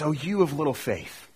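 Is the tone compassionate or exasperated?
compassionate. It sounds warm and caring. The speaker wants the hearers to understand. The speaker calls it right. "with the tone of compassion and desire for his hearers"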